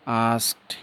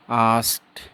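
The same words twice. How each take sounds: The two takes are said the same way.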